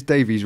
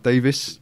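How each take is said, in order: First: "Davies" ending in a long "eez". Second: "Davis" ending in a short "iss". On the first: Host checking a guest's surname, "Davies" said DAY-veez. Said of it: "Not Davis". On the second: Host offering the other surname, "Davis" said DAY-viss. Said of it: "we say Davis". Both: Shown as a demonstration.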